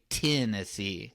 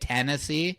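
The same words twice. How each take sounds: First: The first syllable sounds like 'tin'. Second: The first syllable sounds like 'ten'. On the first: This is how people with the southern accent say it. "they say Tennessee, like T T I N" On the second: This is how people without the local accent say it. "for us, how we say it"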